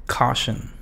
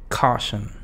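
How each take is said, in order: No difference in how they are said.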